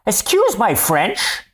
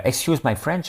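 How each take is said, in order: First: High, slow put-on English "Excuse my French"; English accent. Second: Said in the usual way. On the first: Host imitates an Englishman apologizing, high and slow. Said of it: "c'est un Anglais qui dit".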